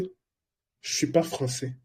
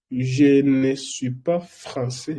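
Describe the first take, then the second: First: The word ne is left out entirely. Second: The word ne is pronounced in full. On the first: This is how people talk quickly. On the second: This is the written form.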